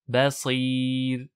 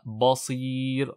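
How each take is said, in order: First: The first consonant is thin, not emphatic. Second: The first consonant is thick and emphatic. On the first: The speaker calls it right. "le ba, munfatih, mustafil, donc aminci" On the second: The speaker calls it wrong. "et pas basir"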